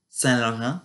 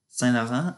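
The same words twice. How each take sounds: No difference in how they are said.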